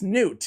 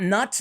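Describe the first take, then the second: First: The name sounds like 'newt', no G sound. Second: The name rhymes with 'but', no G sound. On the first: The speaker calls it right. "It's Newt" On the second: The speaker calls it wrong. "Not nut"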